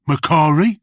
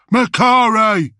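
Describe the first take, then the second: First: Said in the usual way. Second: Higher, much louder, slow bellowed name; roared. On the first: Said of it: "asked Bullets". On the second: Acted. Bullets roaring at the doomed grot. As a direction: roar the name in his face. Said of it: "roared Bullets".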